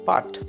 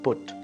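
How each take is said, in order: First: The vowel sounds like the vowel in cut. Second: The vowel sounds like the vowel in foot. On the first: The speaker calls it wrong. "P U T is not put" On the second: The speaker calls it right. "but put"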